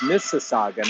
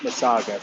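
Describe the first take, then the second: First: The name is said with four syllables. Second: The name is said with three syllables. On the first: The speaker calls it right. "So it's Mississauga" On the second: The speaker calls it wrong. "not Masaga"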